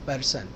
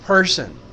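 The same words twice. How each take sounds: First: The first P has no puff of air. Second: The first P has a puff of air. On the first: The speaker calls it wrong. "हम कहते हैं पर्सन" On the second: The speaker calls it right. "जबकि ये फ है, थोड़ा सा एच है इसमें।"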